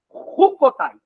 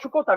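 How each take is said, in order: First: The word begins with a throaty guttural sound. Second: The word begins with a soft 'sh' sound. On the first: The speaker calls it right. "O som do C H é Ru. Som gutural" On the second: The speaker calls it wrong. "no português a gente fala Chucotai, mas no hebraico não é Chu"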